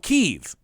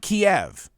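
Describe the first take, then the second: First: The city name is said in its Ukrainian form. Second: The city name is said in its Russian form. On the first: It uses the local name for the capital. The speaker calls it right. "Kyiv is the appropriate transliteration of the Ukrainian name" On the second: It uses the Russian name for the capital. The speaker calls it wrong. "Kiev is the name of the city in Russian"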